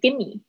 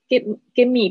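First: The words are merged into one reduced word. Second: Both words are said in full.

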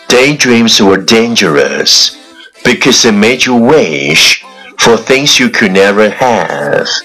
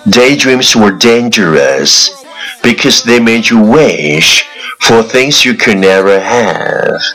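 No difference in how they are said.

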